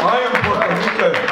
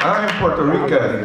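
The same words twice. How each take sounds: First: First take pitched higher; proud declaration. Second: Said in the usual way. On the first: Real, not acted. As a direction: announce it high and proud.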